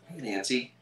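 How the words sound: The greeting sounds worried and concerned. The speaker is worried about the listener. "because Ned's a little more concerned"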